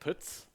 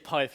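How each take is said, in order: First: It is said with a Swedish vowel, like puts. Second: It sounds like the first syllable of Python. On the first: The speaker calls it wrong. "from different Swedish sources that it's actually like Puts" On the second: The speaker calls it right. "I usually say Pyth"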